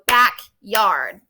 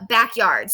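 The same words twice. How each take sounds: First: "backyard" slowed into two clear beats, back-yard; clapped syllables. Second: Said in the usual way. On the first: Shown as a demonstration. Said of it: "two syllables". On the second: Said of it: "let's say the word".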